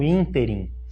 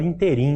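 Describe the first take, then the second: First: The stress is on the first syllable. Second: The stress is on the last syllable. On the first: This is the form the grammar prescribes. The speaker calls it right. "na gramática ela está prevista como ínterim" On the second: This is how many people say it. The speaker calls it wrong. "muita gente fala interim"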